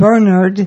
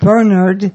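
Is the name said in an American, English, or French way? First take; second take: English; English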